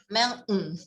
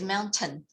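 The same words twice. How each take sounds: First: The middle t sound is nearly dropped. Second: The middle t sound is clearly pronounced. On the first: This is how many Americans say it. "Mountain is more for America. ... The T is nearly gone" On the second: This is how it is said here. "But here is mountain"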